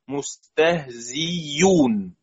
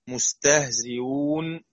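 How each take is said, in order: First: The hamza becomes a full y sound. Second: The hamza is softened between hamza and vowel. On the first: "بإبدال الهمزة ياء خالصة، ياء مضمومة" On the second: "تسهيل بين بين"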